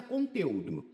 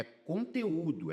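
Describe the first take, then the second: First: Conteúdo stressed on TE, U swallowed into it; wrong stress. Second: Conteúdo slowed, separate long stressed Ú; hiatus stress. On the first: Teacher reading the word as misspelt, stress on TE. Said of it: "Aqui tá conteúdo". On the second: Teacher correcting it by the hiatus rule, drawn-out Ú. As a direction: stretch the Ú of conteúdo as its own syllable. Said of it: "é regra dos hiatos". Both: Shown as a demonstration.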